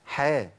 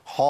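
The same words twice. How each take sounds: First: حا with a thin front vowel, like "hae"; thin, unthickened حا; correct light ح. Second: حا with a thick, backed vowel; over-heavy, full-mouthed حا; faulty heavy ح. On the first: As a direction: keep the vowel of حا light and open. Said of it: "لكن عندنا في القرآن". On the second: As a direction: darken حا towards "ho". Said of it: "أنطق الحاء بالشكل ده". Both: Shown as a demonstration.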